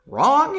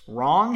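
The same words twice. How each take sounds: First: Incredulous. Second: Said in the usual way. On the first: Acted. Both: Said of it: "Sorry, something in my eyeball".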